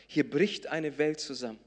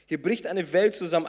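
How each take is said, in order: First: Said in the usual way. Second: "Welt" hit harder, louder second time; louder emphatic "Hier bricht eine Welt zusammen"; stressed repeat. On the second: Shown as a demonstration. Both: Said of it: "repeated for emphasis".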